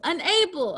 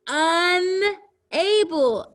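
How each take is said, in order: First: Said in the usual way. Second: Unable slow and high, broken into un and able; split into word parts. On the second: Shown as a demonstration. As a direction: draw out UN, then say able separately in Unable. Word built from prefix plus base.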